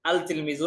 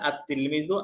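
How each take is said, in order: First: The L of the article is clearly pronounced. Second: The L merges into a doubled T sound. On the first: The speaker calls it wrong. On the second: The speaker calls it right.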